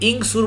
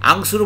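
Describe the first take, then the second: First: The word begins with an i vowel. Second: The word begins with an a vowel. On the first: "এখানে আপনি ইংসুর বলবেন না" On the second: "আংসুর বলতে পারবেন না"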